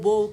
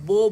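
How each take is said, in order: No difference in how they are said.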